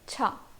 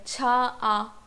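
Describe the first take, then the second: First: The two vowels merge into one syllable. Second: The two vowels are said as separate syllables. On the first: The speaker calls it right. "ये मर्ज हो गया है इसमें" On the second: The speaker calls it wrong. "ये बहुत ही वियर्ड लगता है"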